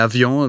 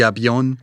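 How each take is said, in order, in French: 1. La consonne du milieu sonne comme un v. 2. La consonne du milieu sonne comme un b. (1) "au lieu de dire avion" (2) "au Mexique, on dit avion"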